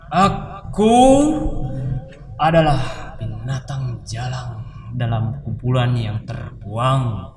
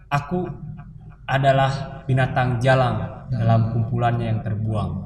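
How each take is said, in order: First: It is read dramatically, with dynamics and emphasis. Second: It is read plainly, with little vocal variation. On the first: The poem is acted out as theatre. "ketika diteatrikalkan" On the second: It is simply reading a poem. "Itu membaca puisi"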